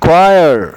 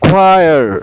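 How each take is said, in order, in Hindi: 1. यह kw ध्वनि से शुरू होता है, kwayar. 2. यह kw ध्वनि से शुरू होता है, kwayar.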